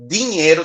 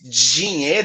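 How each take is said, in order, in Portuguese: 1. Começa com um som de D puro. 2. Começa com um som de D mais J. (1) "é um D puro foneticamente" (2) "ele tem um J ali introduzido"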